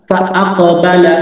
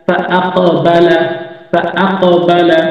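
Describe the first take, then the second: First: Said in the usual way. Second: ফা আক বালা drawn out slowly, syllable by syllable; teacher to students, slowly joining the letters; slow careful spelling-out. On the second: Shown as a demonstration. ধীরে ধীরে বানান করে পড়া.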